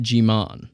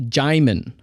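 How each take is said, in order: First: Jimon said jee-MON; mispronunciation. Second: Djimon said JAI-mun; correct pronunciation. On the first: Host owning up to a mistake, mispronounced name. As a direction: say Jimon as jee-MON, long second syllable. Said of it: "I pronounced it Jimon". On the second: Host correcting a podcast error, careful pronunciation. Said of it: "his name is pronounced". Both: Shown as a demonstration.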